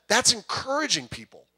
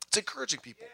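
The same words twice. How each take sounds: First: Said in the usual way. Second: Much softer, hushed aside; hushed repeat. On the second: Real, not acted. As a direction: drop the volume right down to underline the point.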